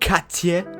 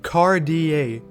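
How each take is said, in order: First: The name is said with a non-American pronunciation. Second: The name is said with an American pronunciation. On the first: "not Cartier" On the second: "very American of me"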